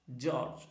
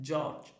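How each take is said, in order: Both takes have the same delivery.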